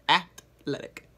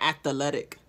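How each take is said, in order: First: The word is said with three syllables. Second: The word is said with an extra fourth syllable. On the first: The speaker calls it right. "That's it" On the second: The speaker calls it wrong. "you add another syllable to athletic"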